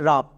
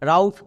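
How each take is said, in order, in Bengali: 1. স্বরধ্বনিটি একটি সাধারণ 'ah' ধ্বনি। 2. স্বরধ্বনিটি একটি 'ow' গ্লাইড। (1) "এর উচ্চারণ কী হবে রাব" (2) "রাউফ উচ্চারণ করা চলবে না"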